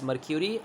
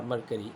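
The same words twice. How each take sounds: First: "mercury" said with a y glide, mer-KYOO-ree; mer-kyoo-ree pronunciation. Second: "mercury" said MER-kuh-ree, without a y glide; mer-kuh-ree pronunciation. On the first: Teacher showing how most people say it, "mercury" as mer-kyoo-ree. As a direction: say "mercury" with "kyoo" as the middle syllable. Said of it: "they pronounce it as". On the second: Teacher showing the other accepted way, "mercury" as mer-kuh-ree. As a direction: say "mercury" with a plain "kuh" in the middle. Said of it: "they pronounce it as mercury or mercury". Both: Shown as a demonstration.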